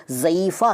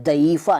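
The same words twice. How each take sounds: First: Said in the usual way. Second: दईफ़ा opening on d. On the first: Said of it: "दईफ़ा नहीं कहते". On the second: Shown as a demonstration. Teacher showing the rejected form, दईफ़ा with d for z. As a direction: start दईफ़ा with d, not z. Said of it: "नहीं कहते".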